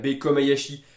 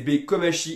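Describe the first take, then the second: First: The name has a 'ya' syllable before 'shi'. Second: The name has no 'ya' syllable in it. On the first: The speaker calls it wrong. "et pas Bei Komayashi" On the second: The speaker calls it right. "C'est Bei Komashi"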